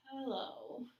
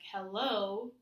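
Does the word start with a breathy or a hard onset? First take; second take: breathy; hard. First: The word starts with a breathy, light onset. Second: The word starts with a firm, hard onset. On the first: The speaker calls it right. "with this breathy and light onset" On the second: The speaker calls it wrong. "instead of saying, like, hello to people"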